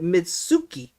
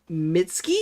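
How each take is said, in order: First: The middle 'su' is said as a full syllable. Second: The middle 'su' is nearly silent.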